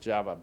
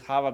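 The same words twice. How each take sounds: First: The name is said the English way, with v. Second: The name is said the Spanish way, without v. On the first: This is how most people here say it. "everybody pronounces Java" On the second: This is the owner's childhood nickname. "for me, it's Java because that's my nickname"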